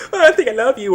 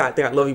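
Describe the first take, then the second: First: Lightly voiced girly confession, higher; mock love confession. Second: Said in the usual way. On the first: Heroine confessing to the hero, mock swooning and higher. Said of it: "She's like". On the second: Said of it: "she didn't say".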